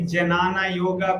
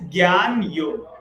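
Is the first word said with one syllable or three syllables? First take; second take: three syllables; one syllable. First: The first word is said as three syllables. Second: The first word is said as one syllable. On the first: The speaker calls it wrong. "like some spelling, I see Janana Yoga. People read" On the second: The speaker calls it right. "the correct pronunciation is Gyan Yoga"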